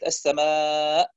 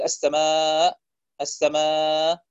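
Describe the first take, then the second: First: السماء ending in an audible glottal stop; clear final hamza. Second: السماء fading out on long aa, hamza barely there; weak final hamza. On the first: Teacher showing correct stopping on السماء, final hamza clear. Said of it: "يجب أن يكون الهمز واضح". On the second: Teacher showing a mistake, السماء with its final hamza lost. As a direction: let the final hamza of السماء nearly vanish. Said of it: "فلا تكاد تظهر الهمزة". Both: Shown as a demonstration.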